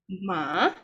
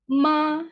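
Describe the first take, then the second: First: The pitch rises from middle to high. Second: The pitch stays high and level. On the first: "like going up" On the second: "the first tone will be high and flat"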